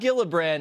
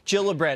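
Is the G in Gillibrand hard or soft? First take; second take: hard; soft. First: The first sound is a hard G. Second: The first sound is a soft j-like G. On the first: The speaker calls it wrong. "Not Gillibrand" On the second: The speaker calls it right. "it's a soft G"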